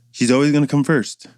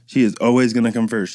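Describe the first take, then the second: First: Said in the usual way. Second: "She is" spelled out with "is" leaned on firmly; stress on is. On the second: Real, not acted. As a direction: insist by hitting "is".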